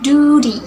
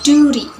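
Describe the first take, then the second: First: It is said in an American accent. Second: The same.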